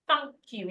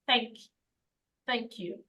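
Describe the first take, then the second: First: "thank you" with a broad "ah" vowel; British thank you. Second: "thank you" with a front "a" as in cat; American thank you. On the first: Teacher modelling British English, "thank you" with an "ah" sound. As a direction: open "thank" to "thahnk" in "thank you". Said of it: "If you're using the British English". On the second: Teacher modelling American English, "thank you" with a front A. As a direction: flatten "thank" to the American short A. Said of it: "If you're using the American English". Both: Shown as a demonstration.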